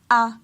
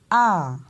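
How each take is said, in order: First: The pitch stays level at mid height. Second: The pitch rises and then falls. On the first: "ce ton moyen-là" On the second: "on a tendance à monter dans l'intonation et à descendre"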